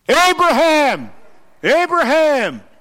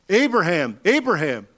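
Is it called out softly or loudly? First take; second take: loudly; softly. First: It is called out loudly and strongly. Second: It is called out fairly softly.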